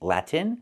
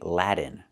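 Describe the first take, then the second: First: The T is clearly released before the N. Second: The T sounds like a soft D. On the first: The speaker calls it right. "I have to use a real T" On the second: The speaker calls it wrong. "We cannot say Latin. ... I cannot use a D"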